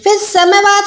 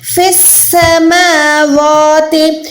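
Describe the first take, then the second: First: The vowels in samawat are short and clipped. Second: The vowels in samawat are drawn out long. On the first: The speaker calls it wrong. "फिर समावात नहीं है" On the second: The speaker calls it right. "एक सेकंड वा को खींचेंगे तो ये हो जाएगा"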